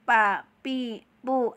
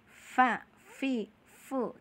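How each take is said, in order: First: Each syllable starts with both lips closing together. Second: Each syllable starts with upper teeth on lower lip. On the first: The speaker calls it wrong. "nggak boleh begitu ya, salah itu namanya" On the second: The speaker calls it right. "gigi kelinci kita harus ditempelin ke e, perut e, bibir bawah"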